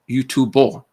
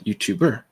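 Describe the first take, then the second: First: The word ends with an 'o' sound. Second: The word ends with an 'er' sound. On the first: "if you were to say YouTuber" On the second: "and you know the English variation"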